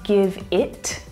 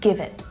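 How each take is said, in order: First: The final T is fully released with a puff of air. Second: The final T is stopped with no puff of air. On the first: The speaker calls it wrong. "I'm not saying give it" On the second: The speaker calls it right. "but give it, ... it's stopping, I'm not releasing the air"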